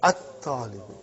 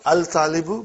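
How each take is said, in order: First: At-talibu with a doubled t and no l; at-talibu, lean on the doubled t; correct at-talibu. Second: Al-talibu with the l sounded before t; wrong al-talibu. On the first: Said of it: "Not al-talibu, but at-talibu". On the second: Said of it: "Not al-talibu". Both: Shown as a demonstration.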